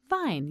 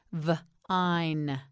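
First: Said in the usual way. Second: "V-ine" split into v... ine; sounded out. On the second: Shown as a demonstration. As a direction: pause after the V in "V-ine". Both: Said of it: "You say it".

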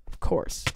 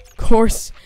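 First: Whispered. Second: Loud, fed-up "Of course"; loud exasperated. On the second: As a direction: shout "Of course" in frustration. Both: Acted. Repeated sarcastic "of course.

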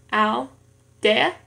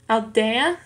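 First: "aldea" in two pieces, al, dea; syllable by syllable. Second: Said in the usual way. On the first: Shown as a demonstration. Learner showing two syllables in an exercise, "aldea" split apart. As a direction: split "aldea" with a pause after "al". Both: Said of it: "en dos sílabas".

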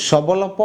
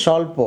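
First: "সবলপ" as shobolopo, every letter sounded; wrong spelling pronunciation. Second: "স্বল্প" as sholpo, the b silent; actual pronunciation. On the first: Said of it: "এটাকে কি আমরা এভাবে বলি". (ব উচ্চারণ করে "সবলপ") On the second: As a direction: say "স্বল্প" in two syllables, sholpo. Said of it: "আসলে আমরা বলি". (ব ছাড়া "স্বল্প") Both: Shown as a demonstration.

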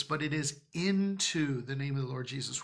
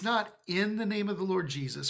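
First: "into" weighted as the key word; right preposition, "into" stressed. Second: Wrong preposition, "in" marked; stress on NOT IN. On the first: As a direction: land firmly on "into" as the correction. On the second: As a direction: lean on "not in" to set up the contrast. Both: Shown as a demonstration. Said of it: "the reason why I'm emphasizing that".

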